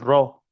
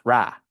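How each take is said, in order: First: The vowel sounds like 'o'. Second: The vowel sounds like 'a'. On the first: The speaker calls it wrong. "no es Ro" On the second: The speaker calls it right. "it's Ra"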